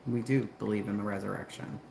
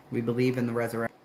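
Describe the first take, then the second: First: "do" stressed in a lower-pitched restatement. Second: Said in the usual way. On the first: Real, not acted. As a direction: lean on the word "do".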